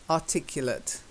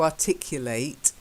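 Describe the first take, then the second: First: The final syllable has a weak 'uh' vowel. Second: The final syllable has a full vowel. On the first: It is used as an adjective. "It's actually being used as an adjective ... so the uh sound" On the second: It is used as a verb. "it's not the verb, which is to articulate"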